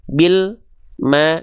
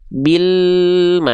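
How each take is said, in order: First: The l sound stops with a silent gap. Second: The l sound flows straight into the m. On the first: The speaker calls it wrong. "jangan sampai antara bunyi al dengan bunyi ma itu tertahan alnya" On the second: The speaker calls it right. "tapi bil ma"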